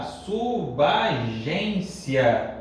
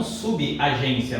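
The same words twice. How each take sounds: First: "subagência" drawn out as su-ba-gência; correct pronunciation. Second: "subagência" as su-bi-a-gência; wrong pronunciation. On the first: Teacher gives the correct form, "subagência" as slow su-ba-gência. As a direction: join b to a in "subagência", very slowly. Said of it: "O correto é suba". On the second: Teacher rejects the common mistake, "subagência" as subi-agência. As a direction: add an i after b in "subagência". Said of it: "E não subagência". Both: Shown as a demonstration.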